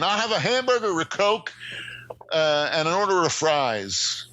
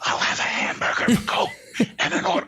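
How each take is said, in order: First: It is said in a normal speaking voice. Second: It is said in a whisper.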